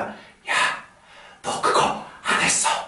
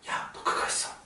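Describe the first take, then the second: First: A breathy, louder whisper that carries far. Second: A soft, quiet whisper that barely carries. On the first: It must reach the back of the theater. The speaker calls it right. "이 속삭이는 소리가 뒤까지 들려야 되니까 ... 조금 호흡을 섞어주" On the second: It is spoken privately to a friend nearby. The speaker calls it wrong. "진짜 내가 친구한테 속삭이듯이"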